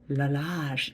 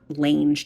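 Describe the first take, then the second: First: The name is said with two syllables. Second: The name is said as one short syllable. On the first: The speaker calls it right. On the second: The speaker calls it wrong.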